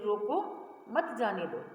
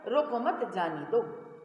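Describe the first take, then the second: First: There is a pause right after 'roko'. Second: There is a pause right after 'mat'.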